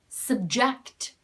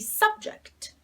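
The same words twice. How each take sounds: First: The stress is on the second syllable. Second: The stress is on the first syllable. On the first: It is a verb meaning to expose to something. "if the stress falls on the second syllable, this is reduced and becomes a schwa sound" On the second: It is a noun meaning a topic or theme. "If the stress is on the first syllable, we say subject"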